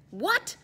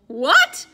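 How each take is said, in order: First: High, puzzled question; a sharp, baffled what; startled. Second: Louder, higher shocked question; shocked outcry. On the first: Mongol startled to hear they are locked in. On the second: Molly, Eddie and Raj shocked at being locked in. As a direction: blurt it out in disbelief. Three friends shocked together. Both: A narrator's reading.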